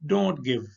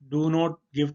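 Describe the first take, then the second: First: Do and not are merged into one short word. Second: Do and not are said as two full words. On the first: "short form में बोलते हैं" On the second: "डू नॉट give नहीं बोलते"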